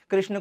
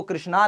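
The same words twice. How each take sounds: First: Said in the usual way. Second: कृष्णा ending in a long "naa"; anglicised reading. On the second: Shown as a demonstration. Teacher showing English spelling to students, कृष्णा read with long final "aa". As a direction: add a long "aa" to the end of कृष्णा. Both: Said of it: "कृष्ण को कृष्णा लिखा जाता है".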